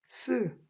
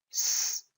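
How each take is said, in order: First: The s is tense and forcefully pressed. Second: The s is soft, airy and hissing. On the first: The speaker calls it wrong. "사실은 틀리게 발음한 거죠" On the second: The speaker calls it right. "속살거려지며 공기가 좁은 통로를 통과해야 나는 소리"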